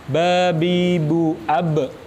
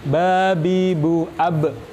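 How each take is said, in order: The two takes are said the same way.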